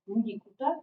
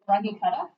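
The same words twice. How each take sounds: First: It is pronounced the German way. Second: It is pronounced the American way. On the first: "The Germans that I was with pronounce this as" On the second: "Americans always pronounce this"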